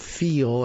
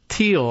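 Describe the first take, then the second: First: The name starts with a TH sound. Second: The name starts with a plain T sound. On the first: This is how the speaker usually says the name. "as I do with the T H" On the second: This is how others say the name. "I've heard someone pronounce it this way"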